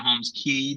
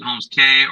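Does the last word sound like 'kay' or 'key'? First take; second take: key; kay. First: The last word rhymes with 'see'. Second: The last word rhymes with 'day'. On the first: "or Holmes Key, depending on how they pronounce it in your country" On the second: "you can pronounce it Holmes K"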